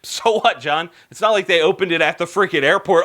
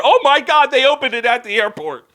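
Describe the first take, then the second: First: Quick, offhand brush-off; dismissive viewer. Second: Loud, high outburst of disbelief; mock shock. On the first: Acted. Imagined viewer waves off the souvenir shop news, dismissive. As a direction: shrug it off as no big deal. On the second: Host reacts to a gun shop opening at an airport, mock shock. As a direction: blurt it out, hammed-up astonishment.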